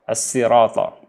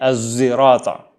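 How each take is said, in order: First: It starts with a plain, light s sound. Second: It starts with a z sound and rounded lips. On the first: "mengganti sa dengan sin" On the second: "Dia membacanya dengan zai"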